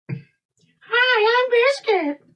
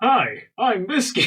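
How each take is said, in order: First: It is said in a sweet, childish voice. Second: It is said in his normal voice.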